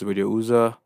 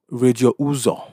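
First: The name is said with an American accent. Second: The name is said with a Nigerian accent. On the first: The speaker calls it wrong. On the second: The speaker calls it right.

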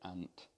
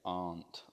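First: It is pronounced like the insect 'ant'. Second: It is not pronounced like the insect 'ant'. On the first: "I say ant. And, you know, an ant is an insect" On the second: "I don't say aunt"

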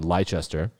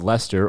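First: It is said the American way, spelled out. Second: It is said the British way, as Lester.

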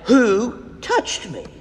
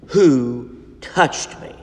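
First: It is asked with more force and emphasis. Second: It is asked in a calmer voice.

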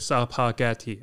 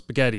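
First: An extra vowel breaks up the opening s-p cluster. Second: The opening s-p cluster is said with no extra vowel. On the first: The speaker calls it wrong. "my mom would like say each syllable" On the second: The speaker calls it right. "no, it's spaghetti"

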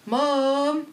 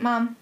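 First: The shouted vowel is drawn out like a moo. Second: The shouted vowel is bleated like a baa. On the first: "I'd switch the U out, so I'd be like, mum. And everyone said I sounded like a cow" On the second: "So I changed to mam... And now they're saying I sound like a sheep"

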